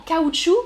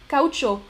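First: Caoutchouc higher and louder, ending "choo"; French caoutchouc. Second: Caucho said "kaoo-cho", ending in O; Spanish caucho. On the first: Teacher compares with Spanish, French caoutchouc ending "choo". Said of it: "ça ressemble vraiment". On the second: Teacher compares with French, Spanish caucho ending "cho". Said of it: "en espagnol". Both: Shown as a demonstration.

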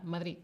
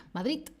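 First: "Madrid" sin nada al final, "Madrí", más bajo y suave; acento del sur. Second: "Madrid" acabado en t seca, "Madrit"; acento barcelonés. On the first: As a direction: di "Madrid" sureño, cortado en la i. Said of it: "sin Z y sin nada". (acento del sur, "Madrid" sin d final) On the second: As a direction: di "Madrid" con t final, a la barcelonesa. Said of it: "con T". (acento de Barcelona, "Madrid" con te final) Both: Shown as a demonstration.

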